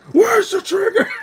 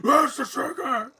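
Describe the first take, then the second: First: High, loud hammed-up Where's the trigger; mocking quote of Batman, louder; imitating Batman shouting. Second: Slow, high mocking quote of Where's the trigger; hammed-up gravel Batman; imitating Batman mid-laugh; mock Batman growl. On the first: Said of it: "I was just laughing my ass off". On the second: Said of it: "I was laughing my ass off".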